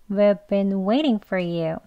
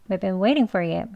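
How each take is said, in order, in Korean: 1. 이 문장은 천천히 말해요. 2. 이 문장은 빠르게 말해요. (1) "천천히 해볼게요" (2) "빨리 더 할게요"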